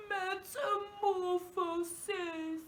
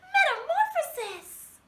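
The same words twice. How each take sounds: First: Slow, crying, drawn-out word; really sad. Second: Much higher, louder dainty princess. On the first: Teacher saying the word sadly for children. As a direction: whimper it like you're heartbroken. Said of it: "like we're really sad". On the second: Teacher saying the word like a princess for kids. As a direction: sing it out like a fairy-tale princess. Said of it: "Let's say it like a princess". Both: Shown as a demonstration.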